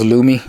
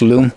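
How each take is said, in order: First: The name is said with two syllables. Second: The name is said with one syllable. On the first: The speaker calls it wrong. "I thought it was Loomy" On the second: The speaker calls it right. "It's pronounced Loom, as in L O O M, and not Loomy"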